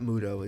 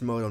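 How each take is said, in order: First: The first vowel sounds like 'oo'. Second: The first vowel sounds like 'oh'. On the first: The speaker calls it wrong. "not Muto" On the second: The speaker calls it right. "It's Moto"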